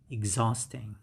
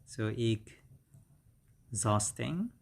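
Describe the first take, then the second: First: Said in the usual way. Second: EXHAUSTING broken after the first syllable, with a long pause; split pronunciation. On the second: Shown as a demonstration. Teacher breaking down exhausting for learners, split careful pronunciation. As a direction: say EXHAUSTING in two parts, ex, then hausting.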